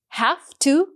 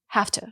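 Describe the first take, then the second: First: Each word is pronounced fully and separately. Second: The words are blended and reduced together.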